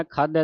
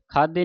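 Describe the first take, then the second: First: ਖਾਧੈ ending in an open "ai" vowel; open-ended ਖਾਧੈ. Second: ਖਾਧੇ ending in a close "e" vowel; mistaken ਖਾਧੇ. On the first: Teacher modelling the double vowel sign, ਖਾਧੈ ending "ai". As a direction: finish ਖਾਧੈ on "ai", not "e". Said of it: "ਖਾਧੈ ਦਲਾਵਾਂ ਦੇ ਨਾਲ". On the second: Teacher showing what not to say, ਖਾਧੇ ending in close "e". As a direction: narrow the final vowel of ਖਾਧੇ. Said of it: "ਖਾਧੇ ਨਹੀਂ ਕਹਿਣਾ". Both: Shown as a demonstration.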